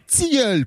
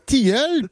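First: The t is followed by a ts hiss. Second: The t is plain, with no hiss after it. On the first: The speaker calls it right. "On dit" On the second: The speaker calls it wrong.

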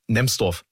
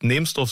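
First: The first vowel is short. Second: The first vowel is long. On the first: This is how locals say the name. The speaker calls it right. "sondern Nemsdorf. ... Auch wenn es nicht mit Doppel-M ist" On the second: This is how outsiders say the name. The speaker calls it wrong. "tatsächlich sagt niemand, der dort wohnt, Nemsdorf"

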